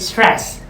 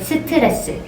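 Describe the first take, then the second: First: It is said as one syllable, English style. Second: It is said as four syllables, Korean style. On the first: The speaker calls it wrong. "we don't say stress" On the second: The speaker calls it right. "We say 스트레스"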